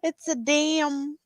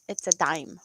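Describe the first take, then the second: First: The name's vowel sounds like the vowel in 'damn'. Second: The name's vowel sounds like the vowel in 'dime'. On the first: This is how some foreign speakers say it. The speaker calls it wrong. "I heard someone, I think they were from the U K or the U S" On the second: This is the usual local way to say it. The speaker calls it right. "Yeah, no"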